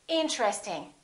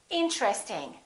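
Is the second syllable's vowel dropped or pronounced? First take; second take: dropped; dropped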